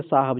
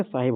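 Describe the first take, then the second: First: साहब said as two syllables, saa-hab, no i vowel; the common mistaken साहब, with the middle vowel dropped; wrong pronunciation. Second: साहिब said in three clear parts, saa-hib, with a short i; correct pronunciation. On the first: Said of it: "गलत तलफ़ुज़ है". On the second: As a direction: give साहिब its full short i between h and b. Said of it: "साहब नहीं बल्कि साहिब होता है". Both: Shown as a demonstration.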